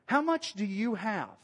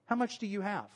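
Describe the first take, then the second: First: "How much do you have" drawn out slowly; slow, deliberate question. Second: Said in the usual way. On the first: Acted. Preacher voicing Jesus asking the disciples, slow and deliberate.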